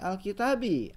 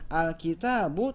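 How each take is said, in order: First: The word ends with an 'i' vowel. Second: The word ends with a 'u' vowel. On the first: The speaker calls it wrong. "tidak boleh kasroh" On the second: The speaker calls it right. "Awal kalimat itu harus dhamma"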